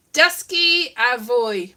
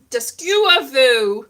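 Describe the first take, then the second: First: FWY ending in a gliding "voy" sound; correct school motto. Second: FW said as a plain "voo"; mistaken school motto. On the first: Speaker quoting the school's Welsh language motto, carefully pronounced. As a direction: say "Dysgu a fwy" slowly, FWY as "voy". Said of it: "which was". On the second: Speaker showing what they thought the motto was, mispronounced. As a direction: misread "Dysgu a fw", ending on a long "oo". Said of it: "which I thought was". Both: Shown as a demonstration.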